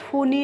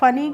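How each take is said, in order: First: The first vowel is a long 'oo' sound. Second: The first vowel is a short 'uh' sound. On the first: The speaker calls it wrong. "फूनी नहीं पढ़ेंगे" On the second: The speaker calls it right. "फनी पढ़ेंगे"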